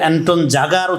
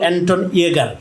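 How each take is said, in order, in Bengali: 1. উপাধিটি J-এর উচ্চারণ দিয়ে শুরু। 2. উপাধিটি Y-এর উচ্চারণ দিয়ে শুরু। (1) "কেউ কেউ অ্যান্টন জাগার উচ্চারণ করছেন" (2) "ওনার নামের উচ্চারণ করতেছিল অ্যান্টন ইয়েগার"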